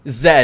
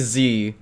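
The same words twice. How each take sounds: First: The letter is pronounced as 'zed'. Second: The letter is pronounced as 'zee'. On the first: This is how the speaker says it. "And I say and I say Z. ... I'm Canadian" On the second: This is how the speaker does not say it. "I don't say Z"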